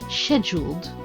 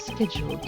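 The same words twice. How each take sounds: First: It is said in a British accent. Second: It is said in a plain American accent. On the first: The speaker calls it right. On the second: The speaker calls it wrong.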